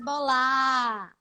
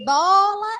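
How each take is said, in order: First: The stress is on the second syllable. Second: The stress is on the first syllable. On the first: The speaker calls it wrong. "a sílaba forte da palavra estar em lugares diferentes" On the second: The speaker calls it right. "em vez de dizer bola"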